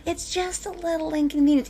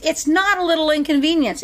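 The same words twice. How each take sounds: First: Soft, higher-pitched mock reassurance; light, airy mocking quote; dismissive mimicry. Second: Firmly contradict, hitting "not"; "not" punched in pointed correction; emphatic rebuttal. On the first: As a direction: brush it off as trivial, mimicking the naysayers. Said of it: "all those people out there that are like". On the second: Real, not acted. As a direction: stress on "not", higher than usual. Rebutting the people just mimicked.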